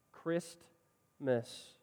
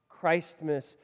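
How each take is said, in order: First: Christmas in two parts, short i, long pause between; split Christmas. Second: Christmas with the long i of Christ; emphasized Christ in Christmas. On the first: Preacher sounding out Christmas in the usual vowel, split in two. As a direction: break Christmas softly into Chris and mas. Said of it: "emphasizing those first wor". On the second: Preacher showing people making Christ prominent, Christmas pronounced Christ-mas. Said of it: "they're capitalizing it". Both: Shown as a demonstration.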